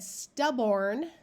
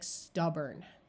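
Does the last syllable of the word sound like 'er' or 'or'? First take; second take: or; er. First: The last syllable has a full 'or' vowel. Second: The last syllable is muffled, like 'er'. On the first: The speaker calls it wrong. "that would be the way it looks" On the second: The speaker calls it right. "really people will say it more like stubborn"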